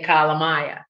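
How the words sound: It is said in a Boston accent.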